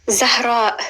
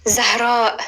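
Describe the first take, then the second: Both takes have the same delivery.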